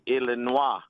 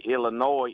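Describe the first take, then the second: First: It is said with a French pronunciation. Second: It is said with a general English pronunciation. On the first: "If we were going to pronounce it in French" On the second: "But in English"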